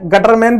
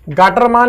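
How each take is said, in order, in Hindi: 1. यह नाम Gutterman बोला जाता है। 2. यह नाम Gaattermaan बोला जाता है। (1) "बिल्कुल ना बोलें" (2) "गाटरमान एक व्यक्ति का नाम है"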